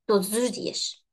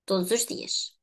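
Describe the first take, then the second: The two takes are said the same way.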